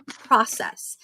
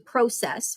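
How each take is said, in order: First: It is said with an American accent. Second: It is said with an Albertan Canadian accent.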